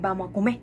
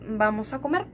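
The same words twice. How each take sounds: First: The last word ends without the r sound. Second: The last word ends with an r sound. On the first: "no utilizar la R al final" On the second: "Un ejemplo es"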